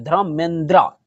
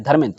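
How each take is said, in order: First: धर्मेंद्रा with a long final "a"; धर्मेंद्रा ending in a full open "aa"; English-style ending. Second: धर्मेंद्र with no final vowel; धर्मेंद्र ending clipped on the consonant cluster; Hindi pronunciation. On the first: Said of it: "लेकिन English में आपका धर्मेंद्रा हो जाता है". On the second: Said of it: "आपको धर्मेंद्र ही पढ़ना है।". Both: Shown as a demonstration.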